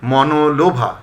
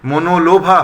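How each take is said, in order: First: মনোলোভা said as "mɔnolobha"; correct open vowel. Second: মনোলোভা said as "monolobha"; closed "mo" opening মনোলোভা; mistaken close o. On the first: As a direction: say মনোলোভা with an open aw, "maw-no-lo-bha". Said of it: "মনোলোভা হবে না". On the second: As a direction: say মনোলোভা with a rounded first o, "mo-no-lo-bha". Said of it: "হবে না". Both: Shown as a demonstration.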